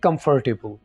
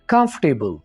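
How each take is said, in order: First: An r sound is heard after 'com'. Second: No r sound is heard after 'com'. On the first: The speaker calls it wrong. "ना कि" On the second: The speaker calls it right. "इसको आपने हज़फ कर देना। तो कैसे बोलेंगे?"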